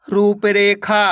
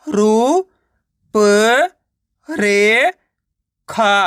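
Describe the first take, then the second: First: Said in the usual way. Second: "रू, प, रे, खा" separately with pauses; teacher's broken-up "रू, प, रे, खा"; sounding out syllables. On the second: Shown as a demonstration. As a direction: stretch "रू", "प", "रे" upward, closing on "खा". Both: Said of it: "direct मात्रा का उच्चारण करके".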